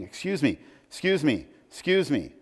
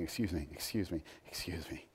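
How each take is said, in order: First: A light hint of a nagging little boy, pitched higher; pestering child. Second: Much softer, lower, trailing off; softer mock pleading. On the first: Little Tommy chasing George round the house, lightly voiced pestering. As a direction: chirp it over and over like a small kid tugging a sleeve. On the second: Us chasing God round the house, softly mocked pleading. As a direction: murmur it like a tired repeated plea.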